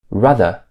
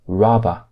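First: The middle consonant is a TH sound. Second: The middle consonant is a V sound.

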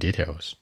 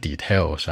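First: The stress is on the first syllable. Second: The stress is on the second syllable. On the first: The speaker calls it right. "往前靠in details" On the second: The speaker calls it wrong. "不是details 啊"

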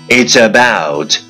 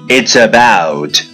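Both takes have the same delivery.

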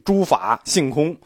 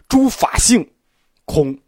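First: The pause falls in the middle, after fa. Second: The pause falls after xing, just before kong. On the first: The speaker calls it wrong. "我们老字中间断句，诸法性空也可以这么断句" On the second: The speaker calls it right. "但它实际上应该是诸法性空，意思差不多但后一种更精准"

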